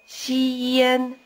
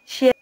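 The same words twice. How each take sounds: First: The syllable is drawn out long and slow. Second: The syllable is said short and quick. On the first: "stretch out the first syllable" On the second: "and then speed it up"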